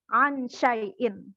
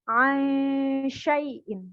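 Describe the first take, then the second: First: The n is pronounced fully and distinctly. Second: The n blurs into the following sy sound. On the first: The speaker calls it wrong. "bukan dibaca ansyai'in. Itu bukan samar-samar namanya" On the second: The speaker calls it right. "Samar-samar ke huruf sya"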